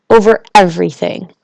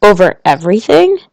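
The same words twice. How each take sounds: First: Plain, matter-of-fact statement; Over everything stated simply, falling; great simplicity. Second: Over everything? with a rising, questioning tune; incredulous echo. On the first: King to the little prince, simple matter-of-fact answer. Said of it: "with great simplicity". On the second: Little prince to king, mildly astonished question. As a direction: echo it back in mild disbelief. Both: A narrator's reading.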